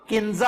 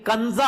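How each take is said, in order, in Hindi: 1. पहला स्वर एक छोटी 'i' ध्वनि है। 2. पहला स्वर एक छोटी 'a' ध्वनि है। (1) "जो नाम किंजा आप कहते हैं" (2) "काफ के ऊपर जबर है, जेर नहीं है"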